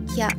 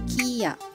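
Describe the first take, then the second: First: It is said as one blended syllable. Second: It is said as two separate syllables. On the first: The speaker calls it right. "sebutannya menjadi Kya" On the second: The speaker calls it wrong. "bukan Kiya"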